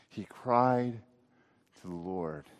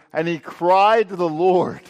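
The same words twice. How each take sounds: First: Soft verse repeat, dropping away on LORD; hushed echo, falling low at the end; reflective repetition. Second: Loud, higher scripture reading, pressing on CRIED; raised, ringing-out line of scripture; emphatic verse reading. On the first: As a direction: let it sink in, pausing after CRIED. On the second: Reads verse, then repeats it. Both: A narrator's reading.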